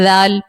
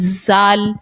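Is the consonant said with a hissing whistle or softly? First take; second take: softly; hissing. First: The consonant is said softly without any whistle. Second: The consonant is said with a whistling hiss. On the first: The speaker calls it right. "वो तो नरमी से पढ़ने वाला हर्फ है" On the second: The speaker calls it wrong. "इसी तरह ज़ाल पढ़ती हैं ज़ाल, ज़ाल भी सीटी वाला हर्फ नहीं है"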